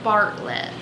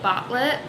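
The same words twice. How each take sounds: First: It is said in a general American accent. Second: It is said in a Rhode Island accent. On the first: "Bartlett, not Bartlett" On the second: "I wanna say Bartlett because I'm from Rhode Island"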